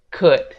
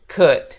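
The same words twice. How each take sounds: No difference in how they are said.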